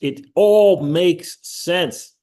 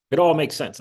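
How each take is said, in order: First: Stretched out, louder, weight on all; slow emphatic. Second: Said in the usual way. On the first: Real, not acted. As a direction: lean hard into every word, slowly. Emphatic insistence on the book.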